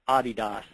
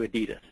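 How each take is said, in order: First: The brand name is said the original way. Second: The brand name is said the American way. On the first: This is how the founder's name was meant to sound. "the correct pronunciation is actually" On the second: This is how it is said in the United States. "we Americanize it. It's changed to"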